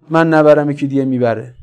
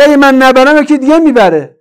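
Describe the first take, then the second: First: Said in the usual way. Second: High, loud retold protest; loud mock excuse. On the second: Preacher quoting the looter's excuse to the congregation, loud and high. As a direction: hurl the quoted excuse out indignantly.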